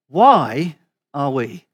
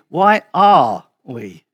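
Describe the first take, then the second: First: The stress is on "why". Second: The stress is on "are".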